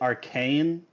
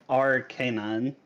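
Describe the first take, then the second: First: The ending does not sound like 'canine'. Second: The ending sounds like the word 'canine'. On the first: The speaker calls it wrong. "most people pronounce it arcane" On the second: The speaker calls it right. "but it's Arcanine"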